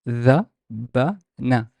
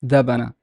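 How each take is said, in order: First: Dhabana very slowly, as three separate syllables. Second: Dhabana said quickly as one joined word; faster. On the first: Teacher gives every consonant time, Dhabana slow and separated. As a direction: break Dhabana into dha, ba, na, pausing between. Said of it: "Slowly. Give every consonant a time". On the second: Teacher now models it faster, Dhabana quick and joined. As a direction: run Dhabana together briskly, no gaps between syllables. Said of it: "Now faster". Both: Shown as a demonstration.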